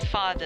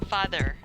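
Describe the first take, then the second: First: The final R sound is silent. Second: The final R sound is clearly pronounced. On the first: The speaker calls it right. "father and mother is a silent R" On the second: The speaker calls it wrong. "they would pronounce it as father, mother with the R"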